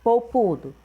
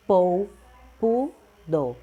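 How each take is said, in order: First: Said in the usual way. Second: "polpudo" split slowly syllable by syllable, po-pu-do. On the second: Shown as a demonstration. (sílabas de "polpudo" bem devagar) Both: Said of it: "Então, fica veludo".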